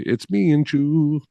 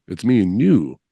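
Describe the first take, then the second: First: The last word starts with a 'ch' sound. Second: The last word starts with a 'y' sound. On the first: The speaker calls it wrong. "they'll say, it's me and Chew" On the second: The speaker calls it right. "Like, it's me and you"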